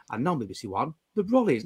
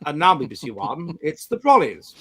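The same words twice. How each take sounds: First: Low, soft modern continuity announcer; down-here announcer. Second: Posh BBC announcer. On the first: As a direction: drop the announcement down low and quiet. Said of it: "Whereas now we're down here". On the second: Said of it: "like that. That's, that's what I want". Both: Shown as a demonstration.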